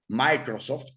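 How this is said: It is pronounced with English-style sounds.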